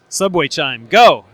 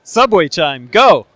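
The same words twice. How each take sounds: First: It is said flatly, without enthusiasm. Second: It is said with lively enthusiasm.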